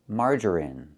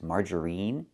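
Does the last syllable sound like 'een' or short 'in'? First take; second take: short in; een. First: The last syllable has a short 'i' vowel. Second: The last syllable has a long 'ee' vowel. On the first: The speaker calls it right. "We use the short I sound like this" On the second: The speaker calls it wrong. "We don't use the long E sound like green beans"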